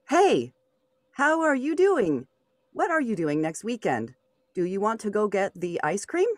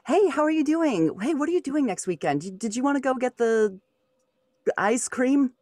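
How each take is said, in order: First: It sounds stiff, like reading from a script. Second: It sounds natural, like casual talk with a friend.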